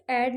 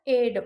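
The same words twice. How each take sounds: First: एड with an open vowel, like "add"; wrong pronunciation. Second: एड with a long "ay", like "aid"; corrected model एड, rhyming with "made"; correct pronunciation. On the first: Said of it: "एड नहीं होगा". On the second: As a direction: say एड as "ayd". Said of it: "इसको एड बोलते हैं". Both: Shown as a demonstration.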